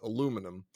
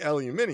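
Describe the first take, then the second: First: It is said the American way. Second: It is said the British way. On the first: "we changed the word so we could make it a product" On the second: "It is actually aluminium"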